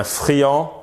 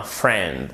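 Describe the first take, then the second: First: Said in the usual way. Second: "friend" as "frend", no i sound; English friend, rhyming with "end"; silent I. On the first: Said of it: "Ce n'est pas comme un friand". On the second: Shown as a demonstration. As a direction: say friend in one syllable with a falling end. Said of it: "mais c'est bien un friend".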